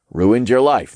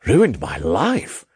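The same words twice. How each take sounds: First: Said in the usual way. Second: "Ruined my life?" drawn out, rising at the end; questioning. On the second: A narrator's reading. Zeitman echoes Jacob's claim, questioning "Ruined my life". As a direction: echo "Ruined my life" slowly as a puzzled question. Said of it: "he questioned".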